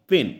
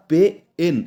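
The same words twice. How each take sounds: First: Said in the usual way. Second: পে and এন broken apart by a pause; পেন chopped into পে, then এন; wrongly split. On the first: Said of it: "পেন বলেই উচ্চারণ করি". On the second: Shown as a demonstration. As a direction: say পে... এন as two separate pieces. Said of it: "এভাবে কিন্তু উচ্চারণ করি না".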